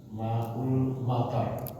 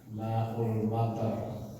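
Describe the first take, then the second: The two takes are said the same way.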